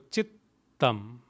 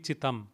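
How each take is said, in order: First: The t sound is held long, doubled. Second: The t sound is short, single. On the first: "There are two T's" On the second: "Had there been one T, it would be chitam"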